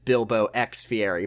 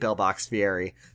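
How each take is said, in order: First: Bilbo and X are said as separate words. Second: Bilbo and X run together as one word. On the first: The speaker calls it right. "I think the correct pronunciation is Bilbo X Fieri" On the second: The speaker calls it wrong. "it is much funnier to say Bilbox Fieri"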